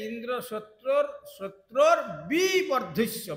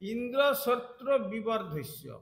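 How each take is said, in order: First: Part of the phrase is said with extra force. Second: The phrase is said evenly, without extra force. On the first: Indra himself gets destroyed. The speaker calls it wrong. "এই উচ্চারণটা একটু জোর হয়ে গেছে" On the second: Indra's enemy should be destroyed. The speaker calls it right. "শুধু বলেছিলেন গুরুদেব"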